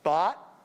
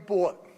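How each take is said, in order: First: It uses the same vowel as cot. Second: It uses a New York style vowel. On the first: "where cot and caught are the same vowel" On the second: "like me, bought in New York"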